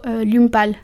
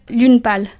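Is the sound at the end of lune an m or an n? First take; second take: m; n. First: Lune ends in an m sound before pâle. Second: Lune ends in an n sound before pâle. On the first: Applies the English assimilation rule to French. The speaker calls it wrong. "Digo lume" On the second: Follows the French pronunciation rule. The speaker calls it right. "En francés eso debería ser lune pâle"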